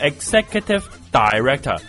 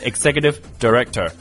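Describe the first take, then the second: First: Director's first syllable is a full 'dai' sound. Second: Director's first syllable is short and light. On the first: The speaker calls it wrong. "你不是executive director" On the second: The speaker calls it right. "你是executive director"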